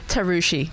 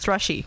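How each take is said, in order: First: The name begins with a 'tar' sound. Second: The name begins with a 'thr' sound. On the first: The speaker calls it right. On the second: The speaker calls it wrong.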